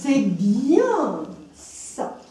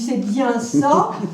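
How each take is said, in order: First: The word 'bien' is stressed and drawn out. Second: All words are said plainly, without special stress.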